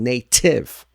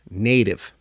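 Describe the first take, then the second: First: The middle T is a clear, full T. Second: The middle T is a quick, light flap. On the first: The speaker calls it wrong. "Avoid saying native" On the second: The speaker calls it right. "We want it to sound fluent and fast"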